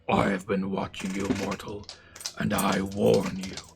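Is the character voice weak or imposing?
imposing. It is said in a more imposing character voice.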